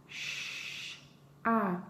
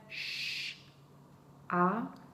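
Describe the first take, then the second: No difference in how they are said.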